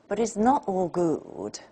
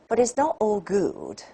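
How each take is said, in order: First: It is said as one unbroken unit. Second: The same.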